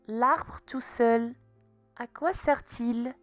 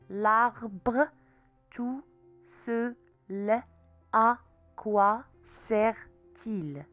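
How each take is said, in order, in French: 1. Les groupes de mots s'enchaînent avec une seule pause. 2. Chaque syllabe est dite à part, avec des coupures. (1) "Marque les pauses" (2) "découpe en syllabes"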